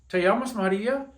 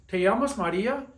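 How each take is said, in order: Both takes have the same delivery.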